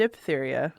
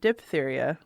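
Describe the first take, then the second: First: It uses the pronunciation most people use. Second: The same.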